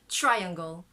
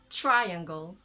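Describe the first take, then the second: No difference in how they are said.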